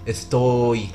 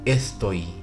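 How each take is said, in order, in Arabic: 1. الحركة ممدودة وطويلة. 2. الحركة مقطوعة وقصيرة وسريعة. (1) "ما اسمهاش افتوي" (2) "دي مخطوفة تبقى عاملة كده"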